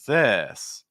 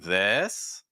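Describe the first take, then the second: First: The pitch goes down on the word. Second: The pitch goes up on the word. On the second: "that's rising"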